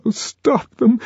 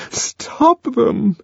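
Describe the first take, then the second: First: High pleading cry of Lenina; desperate high plea; imploring. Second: High begging repeat; pleading high cry; imploring. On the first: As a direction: beg them to stop. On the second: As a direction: plead again, high and desperate. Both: A narrator's reading. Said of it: "she implored".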